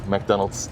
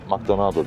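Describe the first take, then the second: First: The word ends on a consonant sound. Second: The word ends with an added vowel. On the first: "McDonald's diyemiyor" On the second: "McDonaldo diyor"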